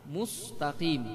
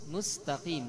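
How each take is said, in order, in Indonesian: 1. Huruf s diucapkan dengan bibir membulat. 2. Bunyi mu kehilangan pembulatannya, sehingga terdengar tidak membulat. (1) "kita pengen menjaga mu, akhirnya sin yang kena" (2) "kita pengen menjaga sin. Akhirnya ... mu-nya yang kena"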